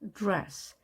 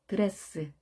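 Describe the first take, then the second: First: The d and r blend into one tight cluster. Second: Extra vowels split the consonants into separate syllables. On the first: The speaker calls it right. "드가 즈로 발음되는 그 사이에 발음 소리가 납니다" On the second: The speaker calls it wrong. "D와 R이 모이면 드레스, 드럼 이것이 아니라"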